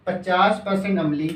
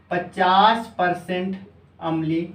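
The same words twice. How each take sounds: First: Said in the usual way. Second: Word by word, very slow, for copying down; slow teacher dictation. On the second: Shown as a demonstration. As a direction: spell it out slowly so students can write.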